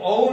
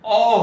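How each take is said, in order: First: औ as a two-part a-oo, louder; Odia औ, wrong. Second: अ said as one long open aw, loud and high; Hindi vowel. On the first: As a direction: glide औ into oo. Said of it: "ये औ नहीं होकर". (औ को अउ, उड़िया ढंग से) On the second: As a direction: hold अ as a broad aw, no oo glide. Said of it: "अ हो जाता है". (अ को लंबा, खुला 'ऑ' जैसा ज़ोर से) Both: Shown as a demonstration.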